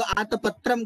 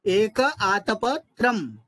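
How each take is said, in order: First: आतपत्रम quickly joined as aata-patram, no break; mistaken joined pronunciation. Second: एक आतपत्रम slow, with aatapa separated from tram; correct split pronunciation. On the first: Teacher showing students the slip, आतपत्रम run together. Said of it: "नहीं तो आतपत्रम करके भूल हो जाती है". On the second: Teacher modelling for students, आतपत्रम slowly split as aatapa, tram. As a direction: draw out एक आतपत्रम, pausing before the final tram. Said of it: "शुद्ध उच्चारण करना है". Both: Shown as a demonstration.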